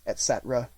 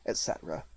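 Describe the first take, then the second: First: Said in the usual way. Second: "et cetera" dropped low and almost whispered; trailing off. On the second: A narrator's reading. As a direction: let "et cetera" fade away to a breath. List trailing off.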